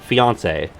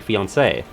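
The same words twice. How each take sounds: First: The final vowel is short and unstressed. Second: The final vowel is longer and more stressed. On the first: It refers to a man who is engaged. "she'd call me her fiance" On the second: It refers to a woman who is engaged. "there is a slightly longer stress on the E"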